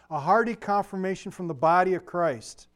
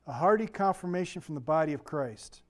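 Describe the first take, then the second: First: "hearty" punched, whole line louder; emphatic proclamation. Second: Said in the usual way. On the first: Shown as a demonstration. Preacher driving home his third point to the class, loud and emphatic. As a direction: declare "A hearty confirmation" with full force.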